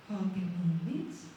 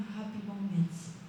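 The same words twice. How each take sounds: First: "moments" rising at the end, slow and low; puzzled question. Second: Said in the usual way. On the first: Retold or imitated. Man reading a mysterious label, puzzled, "moments" rising into a question. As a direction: read "Happy moments" as a drawn-out question, lifting at the end.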